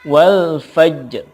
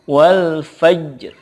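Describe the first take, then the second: Both takes have the same delivery.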